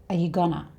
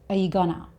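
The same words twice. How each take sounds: Both takes have the same delivery.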